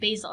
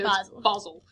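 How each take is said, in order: First: The name is said with an American accent. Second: The name is said with a British accent. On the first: The speaker calls it wrong. "we pronounce it incorrectly" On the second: The speaker calls it right. "You have to say with the English accent there"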